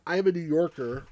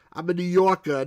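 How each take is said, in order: First: Said in the usual way. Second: Mock New York accent, louder, I'm a New Yorker punched. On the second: Shown as a demonstration. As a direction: brag it like a Brooklyn local. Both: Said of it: "But I don't speak like that".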